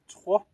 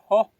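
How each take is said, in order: First: The t has a raspy x sound after it. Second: The t has no raspy sound after it. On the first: The speaker calls it right. "There is a T X high O. That's the proper way to say it" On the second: The speaker calls it wrong. "It's not cho. T O high O"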